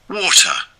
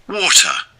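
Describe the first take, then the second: The two takes are said the same way.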